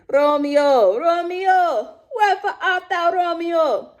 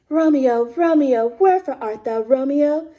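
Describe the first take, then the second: First: It is said in a Caribbean accent. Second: It is said in a British accent.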